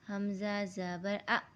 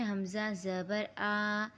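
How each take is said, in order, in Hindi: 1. आखिरी स्वर अचानक काट दिया गया है। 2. आखिरी स्वर खींच कर लंबा पढ़ा गया है। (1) "हमें इसे ऐसा नहीं पढ़ना" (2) "ऐसे नहीं पढ़ना"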